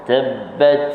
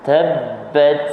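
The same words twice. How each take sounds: Both takes have the same delivery.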